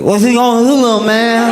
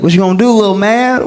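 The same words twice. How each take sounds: First: It is said in the drunk guy's mocking voice. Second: It is said in a plain, flat voice.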